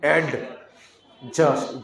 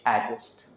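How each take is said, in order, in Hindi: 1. d की आवाज़ ज़ोर से और अलग से बोली जाती है। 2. d की आवाज़ दबी रहती है, लगभग चुप। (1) "जोर से डी को उच्चारण नहीं देना" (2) "डी को एकदम साउंड अंदर ही रख लेना"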